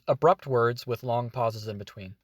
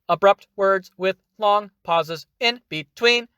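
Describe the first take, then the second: First: It is said smoothly without long pauses. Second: It is said in abrupt words with long pauses.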